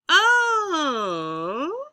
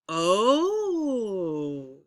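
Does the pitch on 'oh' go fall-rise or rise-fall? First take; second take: fall-rise; rise-fall. First: The pitch falls and then rises on the vowel. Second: The pitch rises and then falls on the vowel. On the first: It shows having no idea what is happening. "a falling and then a rising on that O" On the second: It mocks someone's assumption. "a rising and a falling inflection"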